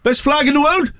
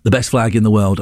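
First: Very high comic Welsh accent. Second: Said in the usual way. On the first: Shown as a demonstration. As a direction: push the Welsh lilt right up high. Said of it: "I'll do the Welsh accent again". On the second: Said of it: "I won't do the accent for this one".

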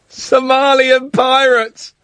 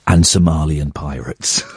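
First: Slow, laughing disbelief; incredulous repeat. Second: Said in the usual way. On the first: Real, not acted. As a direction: stretch it out in amused disbelief. Incredulous repeat of caller's tweet. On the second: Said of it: "and he replied".

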